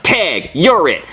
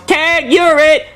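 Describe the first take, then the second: First: Slow, flat deadpan tag. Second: Put-on high, slow, drawn-out taunting kid; mock kid's yell, much higher; kid yelling tag. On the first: Retold or imitated. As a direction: hand it back dry. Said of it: "I'm like". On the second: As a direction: sing it out like a bratty kid. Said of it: "he yells".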